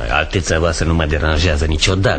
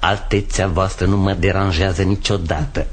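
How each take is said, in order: First: It is forced out through clenched teeth. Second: It is spoken with exaggeratedly clear articulation. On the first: The speaker is irritated and hiding it. "scrâșnești atât de tare încât cuvintele abia se pot strecura printre dinți" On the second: The speaker mockingly corrects the diction. "Dicțiune proastă? E grav"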